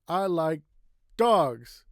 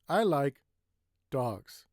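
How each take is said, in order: First: One word is said noticeably louder. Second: A short pause comes before one word. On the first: "You can say it louder" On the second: "take a little break"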